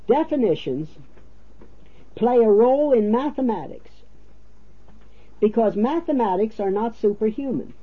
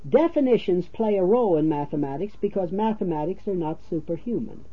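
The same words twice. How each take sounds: First: It is read slowly and deliberately. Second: It is read at a normal pace.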